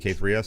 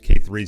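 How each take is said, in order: First: The name ends with a separate letter S. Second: The name ends in the plural word threes. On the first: "You'll hear me say K three S because it's just me- muscle memory" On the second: "I think K threes is the preferred um, pronunciation"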